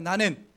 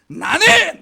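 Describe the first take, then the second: First: It is said weakly and limply. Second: It is said crisply and firmly.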